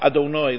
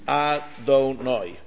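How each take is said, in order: First: The first vowel is very quick and short. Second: The first vowel is a full syllable. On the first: The speaker calls it right. "Like the Aleph is almost swallowed up, ... it's quick" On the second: The speaker calls it wrong. "I'm saying it wrong now, but for the purpose of teaching it"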